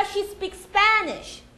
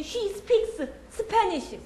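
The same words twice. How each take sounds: First: "She speaks Spanish" linked with one S; high, slow "she speak-SPAAnish"; joined S. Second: Slow "She speaks... Spanish" with both S sounds; choppy, high "speak-seu seu-pa-nish"; broken rhythm. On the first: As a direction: run "speaks" into "Spanish", stretching "SPA". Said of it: "그래서 붙이는 겁니다". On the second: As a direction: split "speaks" from "Spanish", adding vowels after each S. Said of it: "리듬이 끊겨요". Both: Shown as a demonstration.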